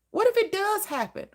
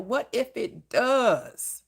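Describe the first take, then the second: First: "What if it does happen?" pitched much higher, "What" stressed; high emphatic question. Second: "What if it does?" said slowly with weight on "What"; slow emphatic question. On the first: Preacher challenging worriers, "What if it does happen?" high. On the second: Preacher challenging worriers, "What if it does?" slow. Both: Shown as a demonstration. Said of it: "repeated with growing emphasis".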